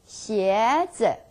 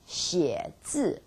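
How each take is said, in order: First: The syllables carry different, changed tones. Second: The first syllable dips; the second falls. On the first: Shoes. "If you change 写字 tones and turn out to be 鞋子" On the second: To write characters. "写 third tone 写 字 fourth tone 字"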